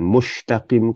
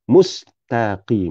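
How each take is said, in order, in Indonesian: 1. Bunyi desisnya adalah sh. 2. Bunyi desisnya adalah s. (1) "bukan huruf huruf shin, mustaqim kah" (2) "kena huruf sin"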